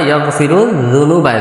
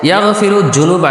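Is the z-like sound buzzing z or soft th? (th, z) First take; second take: th; z. First: The sound is a soft th with tongue at teeth. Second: The sound is a plain buzzing z. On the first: The speaker calls it right. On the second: The speaker calls it wrong.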